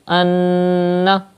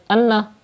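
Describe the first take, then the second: First: The n is held nasally for two counts. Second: The n is short without nasal holding. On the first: The speaker calls it right. "pronounce Noon Mushaddad with gunna" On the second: The speaker calls it wrong. "that's not correct, because you are not doing gunna"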